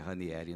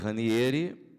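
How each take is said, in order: First: The name is said the common local way. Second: The name is said the Italian way. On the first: This is how people usually say the name. The speaker calls it wrong. "não é Ranieri, não" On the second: This is the name's true original pronunciation. The speaker calls it right. "Eu pronunciei Ranieri"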